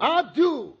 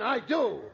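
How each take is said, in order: First: High, loud Southern slip; emphatic accidental Southern drawl on I DO; Southern accent. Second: Said in the usual way. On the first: Acted. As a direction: blurt it out with a caught Southern accent. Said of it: "stop using that insipid Southern accent".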